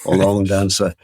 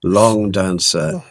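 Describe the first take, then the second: First: It is said in a Birmingham accent. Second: It is said in the speaker's own accent.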